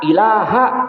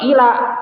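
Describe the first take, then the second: First: The word ends with its final vowel. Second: The word ends without its final vowel. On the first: The speaker calls it right. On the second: The speaker calls it wrong.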